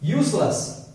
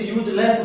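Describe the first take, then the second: First: यूजलेस drawn out as yoos-las; las ending. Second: यूजलेस as yooj-less, with a j; common less ending. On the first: Teacher modelling useless for learners, las ending. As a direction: end यूजलेस on a short "las". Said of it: "लेस का लस". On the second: Teacher showing how everyone says it, less ending. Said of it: "वैसे यूजलेस बोलते हैं सभी". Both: Shown as a demonstration.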